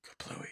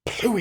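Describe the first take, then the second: First: Hushed, voiceless echo; imitated whisper. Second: Very high-pitched imitated outburst; mock explosive exclamation. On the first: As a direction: whisper it very softly, mimicking the character. Retold film line, whispered repeat. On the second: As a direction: pop it out high, like a little explosion. Retold film line, first take.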